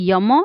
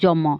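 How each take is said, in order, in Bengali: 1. শব্দটি 'y' ধ্বনি দিয়ে শুরু হয়। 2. শব্দটি 'j' ধ্বনি দিয়ে শুরু হয়।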